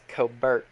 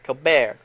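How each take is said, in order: First: The name is said with an English pronunciation. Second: The name is said with a French pronunciation. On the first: "I have called him Cobert" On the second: "He puts like a French pronunciation on it"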